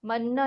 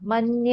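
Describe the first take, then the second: First: The cluster ends in a plain n, no y. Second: The cluster ends with a clear y sound. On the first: The speaker calls it wrong. "मन्न ना" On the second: The speaker calls it right. "मन्य। ... य को भी pronounce करना पड़ेगा"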